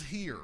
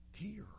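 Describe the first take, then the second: First: Said in the usual way. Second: Whispered Hear, soft and breathless. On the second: Shown as a demonstration. Preacher whispering the word to a hushed room. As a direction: drop Hear to a bare whisper. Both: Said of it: "He says".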